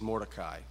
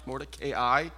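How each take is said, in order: First: The ending lacks separate long A and I sounds. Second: The ending has separate long A and I sounds. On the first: The speaker calls it wrong. "I know the movie says Mordecai" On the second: The speaker calls it right. "My pronunciation marks put a long sound over the A and the I"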